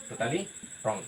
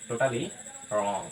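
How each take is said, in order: Both takes have the same delivery.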